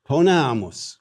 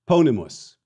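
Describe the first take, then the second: First: Ponamus stressed on long NA, the middle syllable; penult stress. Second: Ponimus stressed on its first syllable, PO; antepenult stress. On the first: Teacher showing students the accent shift, ponamus stressed on NA. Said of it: "to the penult". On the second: Teacher showing students the accent shift, ponimus stressed on PO. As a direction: punch the opening syllable of ponimus, let the rest fall. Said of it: "shift in the stress accent from the anti-penult". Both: Shown as a demonstration.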